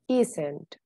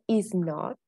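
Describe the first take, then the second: First: The words are contracted into one syllable pair, isn't. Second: The words are said separately as is and not. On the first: It sounds natural. The speaker calls it right. "To sound more natural, we say isn't" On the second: It sounds robotic. The speaker calls it wrong. "To avoid sounding robotic"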